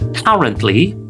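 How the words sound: It is said with a British accent. "for British English"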